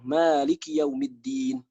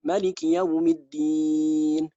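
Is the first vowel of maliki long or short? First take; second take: long; short. First: The first vowel of maliki is long. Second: The first vowel of maliki is short. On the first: "kita baca panjang" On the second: "dibaca pendek"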